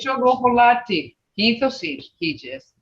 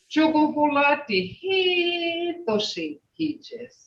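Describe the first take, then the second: First: The phrase is said with its basic tone. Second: The phrase is said with a changed tone. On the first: The house is pretty. "If I say" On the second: The house is beautiful. "But if you change the tone"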